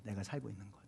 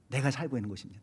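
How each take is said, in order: First: 살고 leaned on, repeated much softer and lower, falling; 살고 said softly and low, tune falling at the end; soft echo. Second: Said in the usual way. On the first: Shown as a demonstration. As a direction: echo the phrase quietly, stressing 살고.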